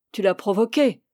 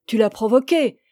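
First: Accusation jalouse encore retenue. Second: Accusation jalouse martelée avec plus de force; accusation jalouse insistante. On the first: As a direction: constater la faute, sans forcer. Amant jaloux accuse, première fois. (reproche jaloux contenu) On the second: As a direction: appuyer l'accusation sous la jalousie. Amant jaloux répète son accusation. (reproche jaloux qui monte) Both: Acted.

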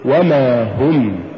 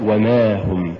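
First: وما هم slow, و set apart and ما pushed; push after waw. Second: وما run together, no push on م; wrong stress. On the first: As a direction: lean on the م and draw out وما. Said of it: "قل". (نطق وما هم ببطء مع دفع الميم) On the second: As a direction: say وما هم quicker, weight on the و. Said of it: "ولا تقل". (نطق وما هم دون دفع الميم) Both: Shown as a demonstration.

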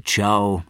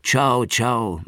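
First: "Ciao" said the Italian way, chow, with a clear falling tune; a bright Italian phone goodbye; Italian farewell into the phone. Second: "Ciao, ciao" said the Italian way, chow chow, with the first one stressed high and the tune falling; a warm double sign-off ending the call, a little higher and louder; Italian goodbye said twice, winding down. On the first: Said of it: "Mancini sagte noch etliche Male". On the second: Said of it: "und erneut". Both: A narrator's reading.

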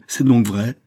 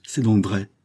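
First: Louder, higher outraged cry; beside herself. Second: Restrained first exclamation of outrage; dawning, angry realisation; beside herself. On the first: Countess repeats it to her guilty daughter, outraged cry. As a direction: burst out with it, appalled. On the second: Countess takes in her daughter's silent confession, appalled. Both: A narrator's reading. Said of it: "s'écria la comtesse hors d'elle-même".

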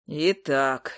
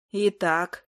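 First: Low, obedient echo; deeper, dutiful repetition; obedient hunter. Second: Said in the usual way. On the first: A narrator's reading. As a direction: repeat it meekly in a lowered male voice. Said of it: "послушно повторил охотник".

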